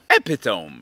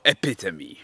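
First: It is said as three syllables, like it's spelled. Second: It is said as four syllables, ending in 'ee'. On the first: The speaker calls it wrong. "Jakbyś to przeczytał? Epitome, nie? Nie" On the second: The speaker calls it right. "Przeczytamy to epitome"

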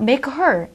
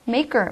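First: The h sound in her is kept. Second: The h sound is dropped, sounding like maker. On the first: The speaker calls it wrong. "make her라기보다는" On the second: The speaker calls it right. "H 발음이 거의 좀 생략이 돼서"

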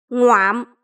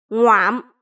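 Both takes have the same delivery.

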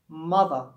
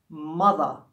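Both takes have the same delivery.

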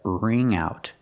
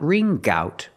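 First: The nasal sound links smoothly into 'out'. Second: A hard G sound comes before 'out'. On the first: The speaker calls it right. "but ring out. Link the sounds" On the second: The speaker calls it wrong. "Not ring gout"

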